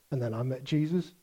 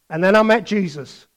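First: Much softer, flat with a small lift on Jesus; deadpan the line, bored; bland mock testimony. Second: Said in the usual way. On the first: Preacher repeats the dull testimony, soft deadpan. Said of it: "Just simply blandly obeying". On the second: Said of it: "it went something like this".

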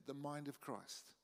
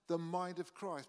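First: The mind of Christ said much softer and slower; hushed, reflective echo of the phrase; softer, slow repeat. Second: Said in the usual way. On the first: Shown as a demonstration. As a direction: let the mind of Christ sink in quietly.

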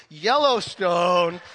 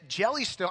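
First: Yellowstone said slowly and a bit louder, with a clear Y; correction. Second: Jellystone said with a J, like the cartoon park; playful slip. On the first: Acted. Pastor corrects himself for the congregation, slow careful Yellowstone. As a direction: stretch out Yellowstone carefully to fix the slip. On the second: Pastor jokingly misnames the park to the congregation, Jellystone with a J. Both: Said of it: "I mean, sorry".

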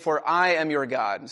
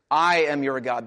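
First: Said in the usual way. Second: I punched louder, the rest lighter; stress on I. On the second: Shown as a demonstration. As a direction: hit the word I hard and let am your God fall. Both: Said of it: "That's the emphasis".

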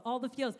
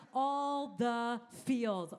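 First: Said in the usual way. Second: Slow, drawn-out series title. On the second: Shown as a demonstration. Pastor announcing the series title slowly. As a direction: stretch out the title for the church.

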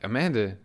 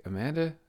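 First: Said in the usual way. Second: "Amanda" pitched up as a question; retold puzzled repeat of "Amanda", higher and questioning; questioning echo. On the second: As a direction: echo "Amanda" back in disbelief, rising high. Coworker echoes the name as question.

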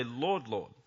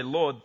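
First: "Lord, Lord" said softer, the second Lord leaned on; doubled Lord. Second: Said in the usual way. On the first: Shown as a demonstration. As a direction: repeat "Lord, Lord" with weight on the second. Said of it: "but they say". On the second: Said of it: "they don't just say".

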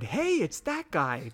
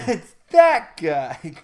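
First: Mock shout. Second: Slow, drawn-out "that guy" call; slow exaggerated recognition. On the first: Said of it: "and I shouted". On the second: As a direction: stretch it like spotting a familiar face.

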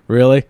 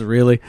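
First: Louder, rising "Really?" as if he can't believe it; Howard's incredulous really. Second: Light imitation of the guy's rising "Really?"; imitating co-host. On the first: Retold or imitated. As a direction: throw out "Really?" in mock disbelief. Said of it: "the way he says it is hysterical". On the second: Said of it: "I like the guy says".

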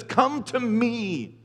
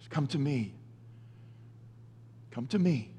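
First: Very slow, drawn-out come to me; slow invitation. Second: Much softer, lower "Come to me"; soft echo. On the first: Preacher voicing Jesus' invitation, very slow. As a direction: stretch out "Come to me" word by word. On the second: Preacher repeating the invitation to listeners, hushed. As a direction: let "Come to me" fall to a hushed murmur. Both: Shown as a demonstration. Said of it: "Jesus says".

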